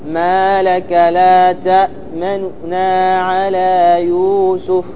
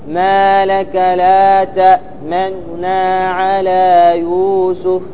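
Both takes have the same delivery.

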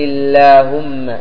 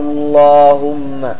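First: The l sound is light and thin. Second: The l sound is heavy and thick. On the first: "الترقيق، ترقق إذا تقدمتها كسرة" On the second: "هذا الحكم الأول"

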